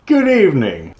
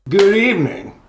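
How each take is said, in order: First: The greeting sounds soft and calm. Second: The greeting sounds harsh and aggressive.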